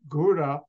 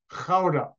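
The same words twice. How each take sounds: First: It is said with an English pronunciation. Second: It is said with a Dutch pronunciation. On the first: "you pronounce it G-O-U-D-A" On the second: "the Dutch pronounce it Gouda"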